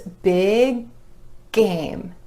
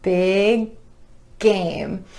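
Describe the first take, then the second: Both takes have the same delivery.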